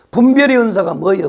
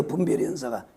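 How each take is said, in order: First: Said in the usual way. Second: Soft echo. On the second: Real, not acted. Quiet answer echo.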